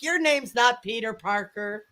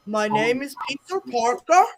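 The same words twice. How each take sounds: First: Said in the usual way. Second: Imitated Indian-accented scam caller; retold caller in mock Indian accent; bad Indian accent. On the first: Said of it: "He's like". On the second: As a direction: put on a clumsy Indian accent. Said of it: "worst Indian accent ever".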